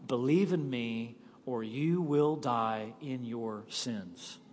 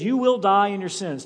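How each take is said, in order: First: Softer and slow, sinking low at the end; solemn quiet warning. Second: Said in the usual way. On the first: Acted. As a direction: let the warning fall to a hush. Jesus's warning, quoted solemnly.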